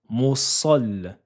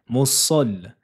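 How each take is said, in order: No difference in how they are said.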